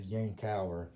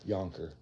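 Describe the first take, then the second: First: It is said with three syllables. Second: It is said with two syllables. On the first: This is how it is properly said. The speaker calls it right. "the correct pronunciation" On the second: This is the habitual regional way of saying it. The speaker calls it wrong. "I've always heard it and have always referred to it as a Yonker"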